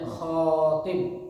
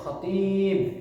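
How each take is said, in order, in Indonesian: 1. Suku kata pertama punya vokal panjang. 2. Suku kata kedua punya vokal panjang. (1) "panjang di khoknya" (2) "Kalau penceramah panjang di toknya"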